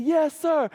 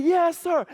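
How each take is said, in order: First: High keen reply from the class; eager kids yes sir. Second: Put-on kids shout it back higher; louder yes sir. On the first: Retold or imitated. Students to Mister Clark, a high eager yes sir. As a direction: answer like pumped-up students. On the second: Class to teacher the second time, a louder yes sir. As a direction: answer with more fire.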